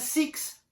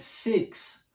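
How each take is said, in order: First: The vowel sounds like a tense 'ee'. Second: The vowel sounds closer to an 'eh'. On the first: The speaker calls it wrong. "Não é six" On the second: The speaker calls it right. "é six"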